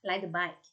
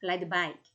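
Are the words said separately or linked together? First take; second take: linked; linked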